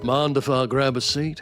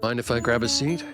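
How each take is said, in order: First: It is read in an American Southern accent. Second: It is read in the speaker's ordinary accent.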